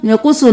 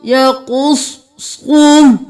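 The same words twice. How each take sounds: First: Thin "यकुस्सु" with light letters; the mistake, "यकुस्सु" without heavy sounds; wrong reading. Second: "यकुस्सु" with thick swad and qaf, slow; heavy letters. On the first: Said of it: "यकुस्सु नहीं करना". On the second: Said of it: "कॉफ मोटा". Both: Shown as a demonstration.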